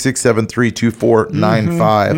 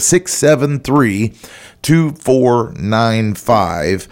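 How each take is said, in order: First: The number is said quickly. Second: The number is said more slowly.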